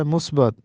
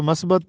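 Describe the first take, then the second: First: Short u, not a, in the first syllable of مثبت; correct pronunciation. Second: Short a after the m of مثبت; common mispronunciation. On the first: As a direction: say مثبت as "musbat". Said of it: "حالانکہ درست تلفظ ہے". (مثبت کی میم پر پیش، "مُثبَت") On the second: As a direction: say مثبت as "masbat". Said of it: "ہم اس کو مثبت پڑھتے ہیں". (مثبت کو زبر سے "مَثبَت" پڑھیں) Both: Shown as a demonstration.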